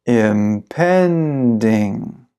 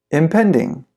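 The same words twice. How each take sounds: First: Very slow, every syllable drawn out; slow-motion model for repeating; slow pronunciation. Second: Said in the usual way. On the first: Shown as a demonstration. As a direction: stretch the word right out for learners. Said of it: "then I'll read it slow". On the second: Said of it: "I'll read it fast".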